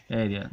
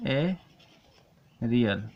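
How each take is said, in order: First: Said in the usual way. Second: एरियल stretched out, each sound drawn long; teacher slowly dictating एरियल; very slow aerial. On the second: Shown as a demonstration. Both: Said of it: "इसे क्या बोलेंगे?".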